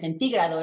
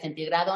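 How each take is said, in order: First: The stress falls on the syllable ti. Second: The stress falls on the syllable gra. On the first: "centígrado es esdrújula" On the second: "y centigrado no"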